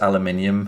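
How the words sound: It is said with a British pronunciation. "we say, you know, we come across aluminium"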